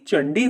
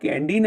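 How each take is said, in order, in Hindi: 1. शब्द 'ch' ध्वनि से शुरू होता है। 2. शब्द एक कठोर 'k' ध्वनि से शुरू होता है। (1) "बल्कि चंडी होता है" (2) "इसका उच्चारण कैंडी नहीं"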